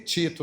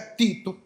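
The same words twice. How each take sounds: First: The word is said with more sounds. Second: The word is said with fewer sounds. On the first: This is how people in this place say it. "Por aqui tem gente que chama de Tito" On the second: This is how it is said in the speaker's home region. "na minha terra é Tito ... gasta menos fonema"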